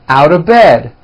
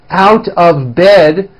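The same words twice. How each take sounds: First: The words are squeezed together into a reduced form. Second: Each word is said separately and in full.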